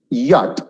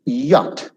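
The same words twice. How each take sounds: The two takes are said the same way.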